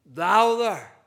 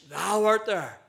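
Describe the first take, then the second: First: Louder, with weight on "Thou there"; emphatic. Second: Said in the usual way. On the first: Shown as a demonstration. Preacher stressing God's presence in hell, said louder with emphasis. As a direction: press down hard on "Thou there". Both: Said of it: "it's actually in the emphatic".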